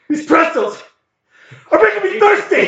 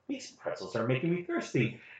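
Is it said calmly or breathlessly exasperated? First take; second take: breathlessly exasperated; calmly. First: It is said exasperated, with short quick breaths. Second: It is said calmly, without heavy breathing.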